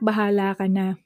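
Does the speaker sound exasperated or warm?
warm. It is said in a warm, accepting tone. The parent has been convinced and agrees. "this can happen when the tone can sound like this"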